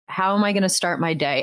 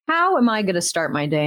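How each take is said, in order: First: The question is said flat and deadpan. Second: The question is said lively and excited.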